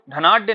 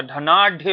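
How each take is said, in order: First: धनाढ्य said with unaspirated d, dhanaadye; wrong da sound. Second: धनाढ्य drawn out with aspirated dh; correct dha sound. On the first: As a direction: drop the breath puff in धनाढ्य's last syllable. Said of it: "ना कि डा का". (धनाढ्य में ढ की जगह ड) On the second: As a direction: slowly stress the ढ in धनाढ्य. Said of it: "ढा का प्रयोग किया जाता है". (धनाढ्य, धीरे, साफ़ ढ के साथ) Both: Shown as a demonstration.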